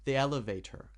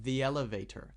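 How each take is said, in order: First: The two words are joined smoothly. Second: The two words are joined smoothly.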